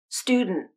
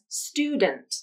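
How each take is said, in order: First: D bursts through the nose; the final T is stopped. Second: Released D, schwa vowel, and a released final T. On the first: "Or you can use nasal plosion and a stop T at the end" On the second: "pronouncing the final syllable as dunt, with a released D, a schwa vowel, and a true T at the end"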